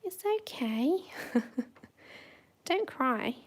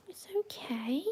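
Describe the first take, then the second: First: Louder high reassurance. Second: Whisper. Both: Real, not acted. Soothing the dog.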